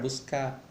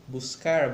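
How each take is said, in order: First: The final R is left off. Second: The final R is pronounced.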